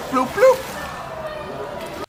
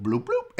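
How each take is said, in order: First: Squeaky high plopping noise, much higher pitch; high splashy bloop sound. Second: Soft low plopping noise, bloop bloop; low quiet bloop sound. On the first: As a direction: pop the bloops up high like a baby hitting water. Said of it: "it's like bloop, bloop". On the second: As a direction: murmur the plop like something dropping in water. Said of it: "the baby sounding like poop that goes in the toilet". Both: Shown as a demonstration.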